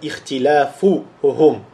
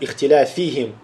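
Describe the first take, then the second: First: The word ends with the vowel sequence -uhum. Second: The word ends with the vowel sequence -ihim. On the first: The speaker calls it right. "Правильно сказать «Ихтиляфухум»" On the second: The speaker calls it wrong. "некоторые говорят «Ихтиляфихим»"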